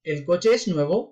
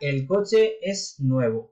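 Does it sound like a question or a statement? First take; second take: question; statement. First: It is said as a yes-no question. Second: It is said as a plain statement. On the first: Is the car new? "और क्वेश्चन में कैसे" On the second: The car is new. "अगर ये एक अफिर्माtiva है"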